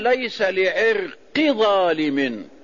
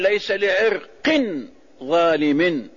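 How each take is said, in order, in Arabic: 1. 'irq' ينتهي بدون صوت n مضاف. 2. 'irq' ينتهي بصوت n مضاف.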